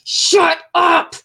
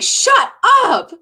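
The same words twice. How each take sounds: First: It sounds frustrated and angry. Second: It sounds excited and joyful.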